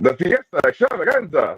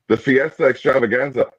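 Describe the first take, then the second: First: It is said with lots of energy. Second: It is said with little energy.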